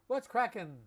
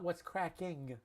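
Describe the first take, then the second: First: The word ends with a dropped-g 'in' sound. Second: The word ends with a full 'ing' sound. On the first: This is the casual slang form. "but in slang" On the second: This is the standard, correct form. "Not what's cracking. That would be correct"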